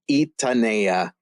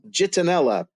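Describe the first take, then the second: First: The name is said with Spanish spelling sounds. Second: The name is read with English spelling sounds. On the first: The speaker calls it right. "It's Spanish pronunciation" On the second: The speaker calls it wrong. "they're going to say"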